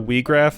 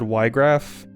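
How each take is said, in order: First: The first syllable sounds like 'wee'. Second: The first syllable sounds like 'why'. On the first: This is how other people say the name. "I've heard people say" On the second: This is how the speaker has always said the name. "I always said"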